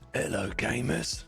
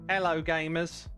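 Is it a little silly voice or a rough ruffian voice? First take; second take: ruffian voice; little voice. First: It is said in a rough ruffian voice. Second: It is said in a little silly voice.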